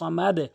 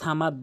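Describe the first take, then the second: First: The final d ends with a downward bounce. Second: The final d ends without a downward bounce. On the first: The speaker calls it right. "নিচের দিকে সাউন্ড করতে হবে" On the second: The speaker calls it wrong. "অনেকে সামাদ বলে"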